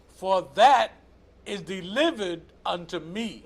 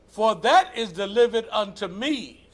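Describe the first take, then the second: First: It is read at a slower pace. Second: It is read at a quicker pace.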